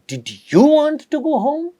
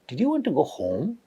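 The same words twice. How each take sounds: First: The rise falls on the word you. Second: The rise falls on the word home. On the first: "at the fourth one, at you" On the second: "in the first one, I was trying to put a rising intonation at home"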